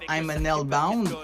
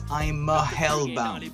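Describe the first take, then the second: First: The article before hellbound is said as 'an'. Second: The article before hellbound is said as 'a'. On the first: The speaker calls it wrong. "c'est pas I'm an hellbound" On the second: The speaker calls it right. "it's I'm a hellbound"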